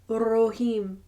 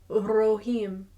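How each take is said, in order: No difference in how they are said.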